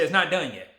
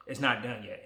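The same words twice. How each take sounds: First: "it's not done yet." pushed higher and louder, with stress on "not"; emphatic first take. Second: Said in the usual way. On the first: Real, not acted. Vlogger telling viewers his journey continues, emphatic. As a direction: declare it firmly.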